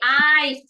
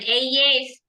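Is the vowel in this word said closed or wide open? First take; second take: wide open; closed. First: The vowel is said with a wide open mouth. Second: The vowel is said with a less open mouth. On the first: The speaker calls it right. "tapi eyes. Dibuka kalau baca eyes" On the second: The speaker calls it wrong. "bukan eyes"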